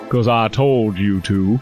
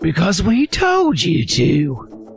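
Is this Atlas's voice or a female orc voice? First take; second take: Atlas; female orc. First: It is said in the Atlas character voice. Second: It is a high, gruff female orc voice.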